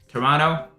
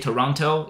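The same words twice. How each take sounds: First: The t sound near the end is dropped. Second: The t sound near the end is clearly pronounced. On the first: The speaker calls it right. "It's Toronto" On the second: The speaker calls it wrong. "You don't pronounce the, the T at the end, so you don't say Toronto"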